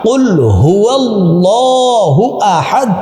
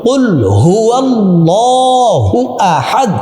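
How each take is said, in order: No difference in how they are said.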